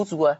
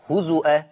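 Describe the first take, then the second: First: هزوا with a w instead of the hamza, huzuwan; هزوا the Hafs way, w glide in the middle; Hafs reading. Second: هزؤا with the hamza sounded, huzu'an; هزؤا read the Warsh way, hamza kept. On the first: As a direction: say هزوا with no glottal stop, just huzuwan. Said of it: "حفص عن عاصم يقرأ". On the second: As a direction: stress هزؤا with a clear glottal stop before the final a. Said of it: "ورش يقول". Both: Shown as a demonstration.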